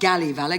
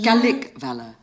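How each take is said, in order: First: The word is articulated sloppily and incompletely. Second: The word is articulated crisply and fully. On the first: The speaker calls it wrong. "not galley valour" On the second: The speaker calls it right.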